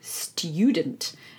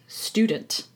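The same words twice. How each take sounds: First: A y sound comes before the oo sound. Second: No y sound comes before the oo sound. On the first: The speaker calls it wrong. "Brits tend to add a little y sound before an oo sound" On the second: The speaker calls it right. "where Americans wouldn't"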